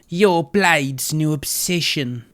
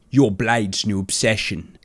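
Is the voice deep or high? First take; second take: high; deep. First: The voice is softer and higher. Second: The voice is deep and low. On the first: The speaker calls it right. "a softer, like, higher voice" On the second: The speaker calls it wrong. "It's a little bit too um deep"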